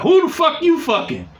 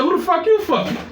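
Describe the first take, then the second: First: Jealous angry demand. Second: Angry accusation. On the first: Jealous ex-girlfriend yelling at him over the phone, higher and angry. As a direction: hurl the accusation down the phone. Ex calls demanding, acted quarrel. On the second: He throws her question back. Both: Retold or imitated.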